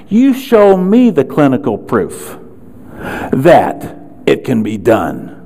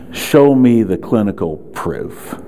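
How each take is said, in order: First: Defiant challenge. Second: Slow, lightly voiced professor's challenge; mimicking the professors. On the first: Real, not acted. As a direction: throw the demand back at them. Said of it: "let me tell you what I did". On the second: Seminar speaker quoting skeptical professors, a mild mock challenge. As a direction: repeat the professors' demand slowly, barely acted. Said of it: "here's what they say".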